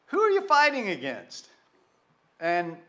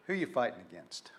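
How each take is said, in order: First: High, loud ringing question; preacher's call. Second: Low, soft, quick murmur of the question; quiet, fast reprise. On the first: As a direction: throw the question out to the whole room. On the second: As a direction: let it drop almost to yourself. Preacher repeats question quietly. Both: Real, not acted.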